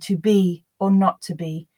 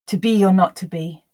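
First: A pause comes after the first 'to be'. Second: No pause comes after the first 'to be'. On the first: "if it's read with a pause, as Shakespeare wrote it with a comma, the intrusion wouldn't step in" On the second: "where there is no pause between the words"

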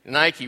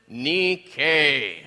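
First: The word is said the usual English way. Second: The word is said the original Greek way. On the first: It names the sportswear brand. "How do you usually pronounce that word?" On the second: It names the ancient Greek word for victory. "Pronounce it"

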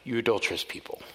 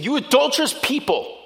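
First: It is said in a calm, mild tone. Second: It is said in an upset, harsh tone. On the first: A gentle remark. The speaker calls it wrong. "He's not saying" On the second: An angry rebuke. The speaker calls it right. "And he's getting upset"

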